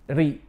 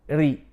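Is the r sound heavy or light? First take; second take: light; light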